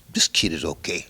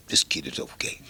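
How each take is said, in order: First: Said in the usual way. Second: Whispered aside. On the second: Retold or imitated. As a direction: say it again under your breath. Repeated, voice dropped away.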